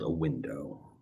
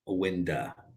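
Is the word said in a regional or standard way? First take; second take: standard; regional. First: The word is said in a plain standard way. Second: The word is said in a distorted regional way. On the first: The speaker calls it right. "It is called a window" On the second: The speaker calls it wrong. "What we don't do is we don't call it a window"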